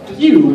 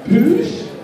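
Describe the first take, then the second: First: The name is said as pew. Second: The name is said as poosh. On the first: The speaker calls it right. "It's pronounced pew, as in like a laser gun" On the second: The speaker calls it wrong.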